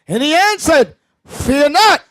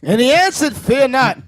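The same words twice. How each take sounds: First: It is read slowly. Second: It is read at normal speed.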